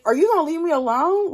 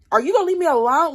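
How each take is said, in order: First: Incredulous yell. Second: Exasperated yell. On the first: Repeating the same incredulous quote. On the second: Retelling Tony's angry phone call. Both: Retold or imitated.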